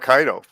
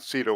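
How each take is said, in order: First: The word begins with a hard k sound. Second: The word begins with a soft s sound.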